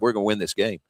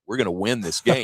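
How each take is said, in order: First: It is said plainly, without extra force. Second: It is said forcefully, with strong emphasis.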